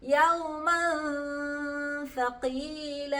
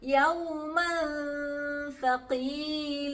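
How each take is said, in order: First: The n sound is hidden before the next letter. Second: The same.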